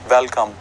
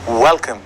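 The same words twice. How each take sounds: First: It begins with a lip-on-teeth V sound. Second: It begins with a rounded-lip W sound. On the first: The speaker calls it wrong. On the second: The speaker calls it right.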